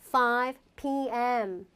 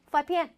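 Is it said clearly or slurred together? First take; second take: clear; slurred. First: Each letter is said separately and clearly. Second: The letters are run together quickly. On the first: The speaker calls it right. "이렇게 정확하게" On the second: The speaker calls it wrong. "이렇게 하면 누구도 모르기 때문에"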